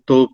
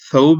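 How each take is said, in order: First: The word begins with a T sound. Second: The word begins with an S sound. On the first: The speaker calls it wrong. "तो ये तोप नहीं है" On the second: The speaker calls it right. "असल में सौब ही है"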